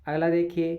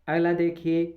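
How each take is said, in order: No difference in how they are said.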